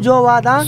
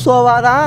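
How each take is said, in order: First: The word begins with a hard j sound. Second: The word begins with a soft s sound. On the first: The speaker calls it wrong. "ஜோ அழுத்தி சொல்லக்கூடாது" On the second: The speaker calls it right. "Very nice"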